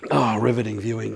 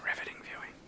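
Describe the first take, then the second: First: Said in the usual way. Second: Dry whispered aside. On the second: Real, not acted. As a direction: whisper it to yourself, deadpan. Repeats joke under breath.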